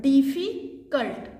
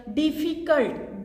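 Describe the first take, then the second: First: "डिफिकल्ट" slowly broken, pause before "कल्ट"; split in two. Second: "डिफिकल्ट" said slowly in one connected piece; said as one word. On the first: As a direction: say "डिफिकल्ट" as two words, "डिफि", then "कल्ट". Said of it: "लगता है कि दो शब्द". ("डिफिकल्ट" को दो हिस्सों में तोड़कर बोलना) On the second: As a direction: draw out "डिफिकल्ट" without breaking it. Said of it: "जिसको बोलने में हमें लगता है". ("डिफिकल्ट" को धीरे, बिना तोड़े बोलना) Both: Shown as a demonstration.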